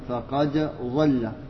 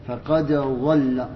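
No difference in how they are said.

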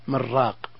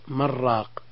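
The two takes are said the same way.

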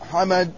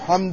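First: A vowel follows the m: Hamad. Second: No vowel follows the m: Hamd.

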